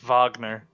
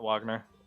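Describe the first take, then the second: First: The name begins with a V sound. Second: The name begins with a W sound. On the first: The speaker calls it right. "They pronounce it as a V" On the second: The speaker calls it wrong.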